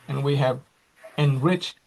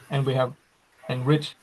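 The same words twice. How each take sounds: The two takes are said the same way.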